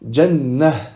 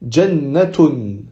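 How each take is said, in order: First: The final letter is sounded as an h. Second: The final letter is sounded as a t. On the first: The reading stops on this word. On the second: The reading continues onto a following word.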